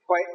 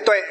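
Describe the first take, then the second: First: The word begins with an h sound. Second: The word begins with a t sound. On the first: This is the southern regional reading. "Còn miền Nam á, đọc chữ này là gì? Phiên âm là chữ chữ huệ" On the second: This is the northern regional reading. "miền Bắc chúng ta đọc là tuệ"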